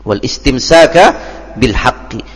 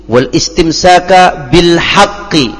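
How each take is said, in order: The two takes are said the same way.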